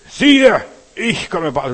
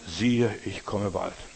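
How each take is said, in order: First: It is read loudest, with much energy. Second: It is read at a normal volume.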